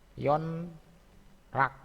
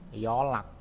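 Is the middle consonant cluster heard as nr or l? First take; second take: nr; l. First: An n sound is followed by an r sound. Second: The n becomes an l sound. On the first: This is how it is written. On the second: This is how it is actually read.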